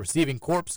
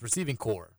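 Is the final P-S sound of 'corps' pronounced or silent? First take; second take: pronounced; silent. First: The last word ends with a sounded P-S. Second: The last word ends without any P-S sound. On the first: The speaker calls it wrong. "I'm glad you corrected Danny on the receiving corpse comment" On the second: The speaker calls it right. "It's receiving core"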